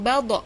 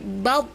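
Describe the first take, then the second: First: The final consonant bounces with an echo. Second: The final consonant stops without any echo. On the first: The speaker calls it wrong. "do ini tidak mantul seperti kof ... Jadi bukan baldo" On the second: The speaker calls it right. "tapi bab"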